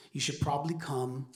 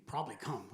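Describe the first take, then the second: First: Said in the usual way. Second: "Probably come?" softer, as a puzzled question; questioning echo. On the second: Retold or imitated. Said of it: "And I'm thinking".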